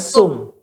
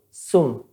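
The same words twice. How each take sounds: First: The first sound is a plain s, tongue inside. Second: The first sound has the tongue tip at the teeth. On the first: The speaker calls it wrong. "Bukan sum" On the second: The speaker calls it right. "ujung lidah ke ujung gisri atas"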